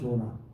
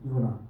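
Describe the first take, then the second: First: The name begins with a 'j' sound. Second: The name begins with a 'y' sound. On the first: This is the English form of the name. The speaker calls it wrong. "영어로 말하면 조나" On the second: This is the Hebrew form of the name. The speaker calls it right. "그 히브리 발음엔 요나가 더 정확해"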